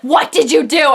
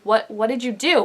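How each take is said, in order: First: It is said loudly and angrily. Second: It is said quietly and stunned.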